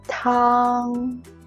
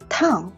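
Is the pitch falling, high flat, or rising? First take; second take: high flat; falling. First: The pitch stays high and level. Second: The pitch drops sharply from high. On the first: "the first tone, high and flat" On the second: "a falling tone"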